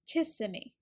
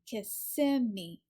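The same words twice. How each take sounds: First: The stress is on the first syllable. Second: The stress is on the second syllable. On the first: "where it's stressed on the first syllable" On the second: "the stress is on the second syllable"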